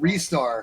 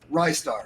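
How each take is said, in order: First: The first syllable sounds like 'wrist'. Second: The first syllable sounds like 'rye'. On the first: This is the official way. "I've been told it's actually" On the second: This is the preferred, nicer-sounding way. "it sounds better if you call it Rystar"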